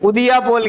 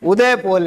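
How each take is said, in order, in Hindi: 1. पहला शब्द 'Udiya' जैसा सुनाई देता है। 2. पहला शब्द 'Uday' जैसा सुनाई देता है। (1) "इसको भी उल्टा बोलते हैं, उदिया पोल कहते हैं" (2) "उदय पोल है"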